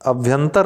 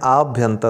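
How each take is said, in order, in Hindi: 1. पहला स्वर ह्रस्व 'a' है। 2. पहला स्वर दीर्घ 'aa' है। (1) "नहीं होता है" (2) "होता है"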